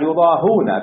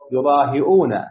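First: No glottal stop comes before the last syllable. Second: A glottal stop comes before the last syllable. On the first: "بقية السبعة يضاهون بلا همس" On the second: "هذه قراءة عاصم بالهمس"

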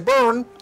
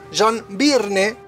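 First: The name sounds like the English word burn. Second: The name is read out the way it's spelled. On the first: "El traductor de Google dice Burn, como si fuera que estás prendiendo fuego" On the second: "lo voy a leer a lo negro. John Byrne, como le dicen muchos amigos porteños"

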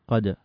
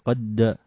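First: The final consonant is released with a short bounce. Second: The final consonant is held as if doubled. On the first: The speaker calls it right. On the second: The speaker calls it wrong.

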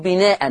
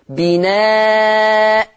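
First: The word ends with an -an nunation sound. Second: The word ends with a glottal stop and long a. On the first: The speaker calls it wrong. "لا ينفع أقف بتنوين، ما ينفعش أقول بناء، ما ينفعش أقف بالتنوين" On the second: The speaker calls it right. "هبدل التنوين المفتوح بألف"

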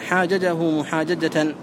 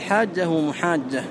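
First: The two identical consonants are pronounced separately. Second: The two identical consonants are merged into one. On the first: The speaker calls it wrong. "ولا تقول مثلا" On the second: The speaker calls it right. "بل"

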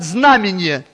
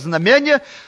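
First: The word is stressed the standard Russian way. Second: The word is stressed the local way. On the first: The speaker calls it right. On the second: The speaker calls it wrong.

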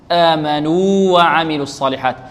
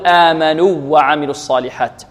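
First: The long vowel and next w stay separate. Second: The two w sounds merge into one doubled w. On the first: The speaker calls it right. "في سورة العصر" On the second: The speaker calls it wrong. "ولا نقول"

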